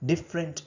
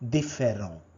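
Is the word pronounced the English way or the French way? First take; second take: English; French. First: It is said with English sounds. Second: It is said with French sounds, ending 'on'. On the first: "Different is pronounced as" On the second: "is pronounced as différent"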